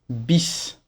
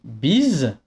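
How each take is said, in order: First: The final consonant is a hissing S sound. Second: The final consonant is a buzzing Z sound. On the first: The speaker calls it wrong. "et pas bis" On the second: The speaker calls it right. "Un S entouré par deux voyelles ne fait pas SE, mais ZE. Donc on dit bise"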